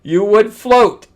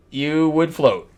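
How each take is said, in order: First: "float" stretched out, high and loud; slow, raised voice leaning on "float"; emphatic correction. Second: Said in the usual way. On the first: Real, not acted. Correcting the writer about the moon, emphatic on "float".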